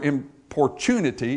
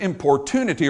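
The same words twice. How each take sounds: First: It is said in a British pronunciation. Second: It is said in an American pronunciation.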